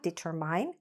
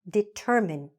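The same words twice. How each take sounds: First: The last syllable sounds like the word mine. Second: The middle is stressed; the last syllable is short. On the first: The speaker calls it wrong. "this verb is not determine" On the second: The speaker calls it right. "This correct pronunciation is determine. We're stressing the middle"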